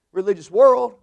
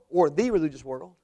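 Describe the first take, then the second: First: Said in the usual way. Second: The religious world with a rising stress on the. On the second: Shown as a demonstration. Preacher corrects himself, stressing the. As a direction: lean on the word the.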